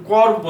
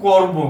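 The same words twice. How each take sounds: First: করব with open aw in the first syllable; teacher shows করব with open vowel; spelling pronunciation. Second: করব as "kor-bo" with rounded o; teacher models করব with o; o-sound demo. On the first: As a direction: say করব as "kawr-bo". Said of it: "অ এর পরিবর্তে ওকার". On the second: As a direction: round the first vowel of করব. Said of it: "এখানে উচ্চারণ করব". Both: Shown as a demonstration.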